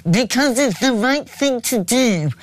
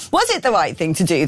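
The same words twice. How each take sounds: First: Slow, nasal mocking impression; nasal, higher-pitched parody voice; Ed Miliband. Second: Said in the usual way. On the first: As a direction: drag it out through the nose in mockery. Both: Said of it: "that nasally voice going".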